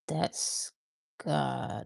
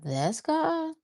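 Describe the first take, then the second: First: The voice falls at the end like a statement. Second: The voice rises at the end like a question.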